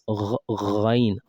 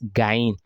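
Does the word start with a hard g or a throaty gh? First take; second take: throaty gh; hard g. First: It starts with a throaty gh from the throat. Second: It starts with a hard stop g. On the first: The speaker calls it right. "it's ghain" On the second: The speaker calls it wrong. "It's not gain. So many people say gain"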